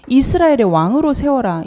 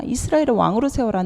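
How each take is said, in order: First: Firm command. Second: Said in the usual way. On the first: Shown as a demonstration.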